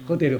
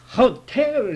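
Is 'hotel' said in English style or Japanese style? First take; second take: Japanese style; English style. First: The word is said with a Japanese-style accent. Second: The word is said with an English-style accent. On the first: The listener cannot understand the word. The speaker calls it wrong. "日本式にホテルとか言ったらしいね" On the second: The word is finally understood. The speaker calls it right. "That's hotel! って言われたんですよ"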